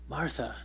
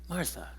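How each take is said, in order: Both takes have the same delivery.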